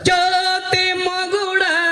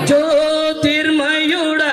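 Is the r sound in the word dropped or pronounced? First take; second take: dropped; pronounced. First: The word is said without the r sound. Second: The word is said with the r sound. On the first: The speaker calls it wrong. "దాంట్లో రా పలకపోతే" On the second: The speaker calls it right. "అసలు పాట ఏంటి అది?"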